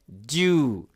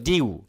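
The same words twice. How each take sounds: First: ডিউ as one long "joo", American style; American pronunciation. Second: ডিউ as "dyoo", British style; British pronunciation. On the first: Teacher tells friends the American pronunciation, ডিউ with long oo. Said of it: "American English যেটা". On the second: Teacher contrasts with American, British "dyoo" for ডিউ. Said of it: "British উচ্চারণ হতো". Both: Shown as a demonstration.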